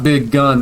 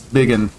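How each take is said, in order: First: The second syllable sounds like 'gun'. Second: The second syllable sounds like 'gin'. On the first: The speaker calls it wrong. "That's not Big Gun" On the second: The speaker calls it right. "that's Biggin"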